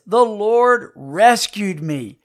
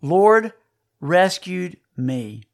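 First: Slow, the Lord rescued me read whole and even; slow reverent reading of "the Lord rescued me"; solemn reading. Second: Preacher hammering each word of "Lord rescued me"; word by word emphasis. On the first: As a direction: lay the line out slowly and gravely. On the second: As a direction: split it into three heavy words, lean on "rescued". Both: Shown as a demonstration. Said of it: "Three words".

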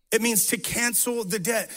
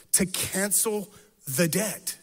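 First: Said in the usual way. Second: "to cancel" drawn out slowly, a pause, then "the debt"; slow emphatic definition. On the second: Shown as a demonstration. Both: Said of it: "It, it actually just means this".

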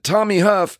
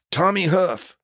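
First: Starstruck echo. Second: Higher, lightly voiced "Tommy Huff" from the hurt man; a hint of the injured stuntman saying "Tommy Huff"; stuntman's name. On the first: Retold or imitated. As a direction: echo "Tommy Huff" in awe. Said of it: "I said". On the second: Stuntman introduces himself from the next gurney, lightly voiced. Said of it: "He goes".

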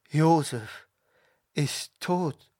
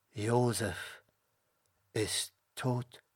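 First: Raised, halting lament for a son; grieving cry. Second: Hushed, halting lament; low-volume, broken-up words of grief; grieving. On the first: Jakob cries out that Josef is dead, grieving. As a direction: let the grief rise on the repeat. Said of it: "und schrie". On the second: Jakob sees his son's coat and weeps, grieving softly. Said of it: "weinte und schrie". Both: A narrator's reading.

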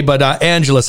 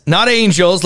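First: "Angeles" said AN-heh-less, three syllables, not angels; right way, three syllables. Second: "Angels" said like the English word angels, two syllables; the common mispronunciation "Angels", rhymes with candles; wrong way, said as angels. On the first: Host corrects the town's name, saying "Angeles" fully. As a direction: give the town "Angeles" its full three syllables. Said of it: "Not Angels, like so many people say". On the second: Host names the wrong version people use, saying "Angels". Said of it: "like so many people say". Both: Shown as a demonstration.

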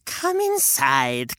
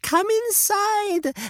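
First: Put-on slow, low coaxing old woman; old lady coaxing. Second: Inside swoops very high and slow; sing-song invitation. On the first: Witch lures the children, low coaxing. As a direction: draw them in gently. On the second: Acted. Witch lures the children, high sing-song. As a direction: lift come inside into a high sugary swoop. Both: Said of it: "said the old lady".

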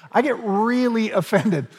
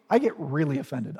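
First: Higher, laughing through the words. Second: Said in the usual way. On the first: Shown as a demonstration. Preacher jokes about himself to the congregation, laughing. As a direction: laugh at yourself mid-line.

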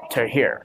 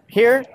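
First: "to here" dropped low, falling; low register. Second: "here" pitched high, rising; high register. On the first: Interviewer contrasting two character voices, low register. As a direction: sink the voice down on "to here". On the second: Interviewer contrasting two character voices, high register. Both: Shown as a demonstration. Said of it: "how do you go from being".

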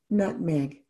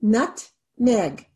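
First: Said in the usual way. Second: Nut-meg, each syllable tapped apart. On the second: Shown as a demonstration. Teacher tapping out syllables for students, slow and separated. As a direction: tap out "Nutmeg" slowly, syllable by syllable. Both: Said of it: "How many syllables?".

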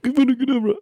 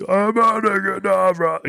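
First: High, sharp little spell cry; squeaky mock wizard casting with a small stick; small wand spell cast. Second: High, slow, drawn-out grand curse; hammed-up wizard with a huge stick; big staff spell cast. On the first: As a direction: fire off a tiny curse with a twig. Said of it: "pick up something small and they're like". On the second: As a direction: wield a giant staff and boom the spell. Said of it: "they have a big giant stick".

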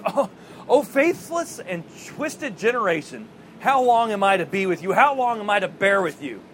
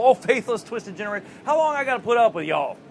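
First: Exasperated rebuke. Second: Higher, quick colloquial paraphrase of a rebuke; mock fed-up, down-home complaint; folksy exasperation. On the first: Acted. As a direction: act out a weary, forceful reproach. Voices Jesus's exasperated rebuke. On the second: Folksy replay of Jesus's rebuke.

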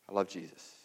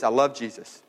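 First: Very soft, low echo; hushed devotion. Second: Said in the usual way. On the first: Retold or imitated. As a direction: let it fall to a quiet, intimate confession. Quoted testimony, repeated in a hush.

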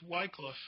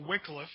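First: "Wycliffe" with a long i, like WHY-cliff; alternative pronunciation. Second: "Wycliffe" with a short i, like WICK-liff; corrected pronunciation. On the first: Teacher introducing translation history, "Wycliffe" said as WHY-cliff. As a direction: say "Wycliffe" with first syllable as "why". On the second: Teacher offering the preferred name, "Wycliffe" said as WICK-liff. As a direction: say "Wycliffe" with first syllable as "wick". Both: Shown as a demonstration. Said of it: "I think is the correct pronunciation".

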